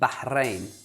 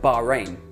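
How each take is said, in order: First: It uses Arabic-style r and h sounds. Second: It uses English-style r and h sounds. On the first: The speaker calls it right. "This is how it's correctly said" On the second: The speaker calls it wrong. "This is how most people say it"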